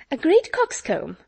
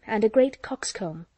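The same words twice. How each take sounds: First: High, louder repeat of overheard words; exclaimed echo. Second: Said in the usual way. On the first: A narrator's reading. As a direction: pounce on the overheard phrase, pitched well up. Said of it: "repeated Miss Steele".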